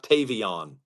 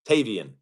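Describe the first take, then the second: First: The last syllable sounds like 'on'. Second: The last syllable sounds like 'an'. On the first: The speaker calls it wrong. "It's Tavian, not Tavion" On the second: The speaker calls it right. "Get it right"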